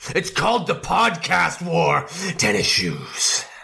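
It is said forcefully, with strong conviction.

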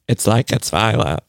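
It is said imitating Erica's voice.

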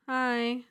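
It is said in a sad tone.

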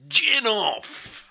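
It is called out like an arena announcer. The speaker calls it right. "say gin off in that voice"

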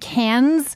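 It is pronounced the American way. The speaker calls it wrong. "When all these American dummies are saying"

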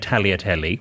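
It is said with an Italian pronunciation. "if you're in Italy, then you can say"

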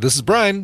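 It is said in a nice, friendly tone. The caller is welcome. "I usually don't say it that nicely"

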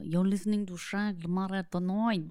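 It is spoken in a put-on French accent.

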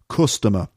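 It is said with a Liverpool vowel sound. "But [name] sings customer, the sound. Instead of my sound"

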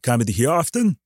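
It is said as a rising question.

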